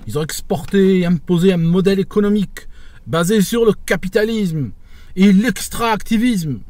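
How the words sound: It is declaimed grandly, like a formal public speech.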